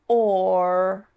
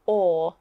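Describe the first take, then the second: First: "or" with tongue pulled back and up into an R; slow rhotic "or", the er sound heard at the end. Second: "or" with tongue flat, no R sound; English "or" as a pure vowel, R silent; non-rhotic. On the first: Teacher practises the word or for learners, rhotic R. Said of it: "the tongue needs to move backwards". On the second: Teacher shows her own accent, non-rhotic. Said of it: "our tongue stays flat". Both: Shown as a demonstration.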